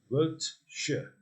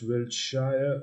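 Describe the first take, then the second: First: The ending is reduced to a short 'sher'. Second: The ending is said as a full 'shire'. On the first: The speaker calls it right. "It's pronounced Wiltshire" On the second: The speaker calls it wrong. "not Wiltshire, although it is spelled Shire"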